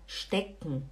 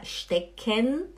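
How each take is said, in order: First: The vowel in the last syllable is dropped. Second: The vowel in the last syllable is clearly pronounced. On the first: The speaker calls it right. "você fala stecken. É como se o E você não falasse" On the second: The speaker calls it wrong. "você não fala stecken"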